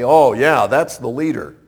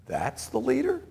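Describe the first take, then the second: First: Assured approval, falling at the end; confident recognition. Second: Hushed, high-pitched disbelief, rising sharply at the end; incredulous question. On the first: Onlookers spotting an obvious leader, confident recognition. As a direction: point out the obvious leader with certainty. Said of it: "look at and say". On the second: Onlookers doubting God's unlikely choice, incredulous question. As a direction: doubt it softly, voice climbing on LEADER. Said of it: "But someone we'd say". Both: Acted.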